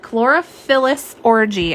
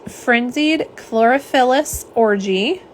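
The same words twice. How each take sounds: First: Chlorophyllus Orgy spelled out slowly, syllable by syllable; carefully slow so as not to trip on Chlorophyllus; slow, deliberate pronunciation of a tricky name. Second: Said slowly. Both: Shown as a demonstration. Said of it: "I have to say it slow".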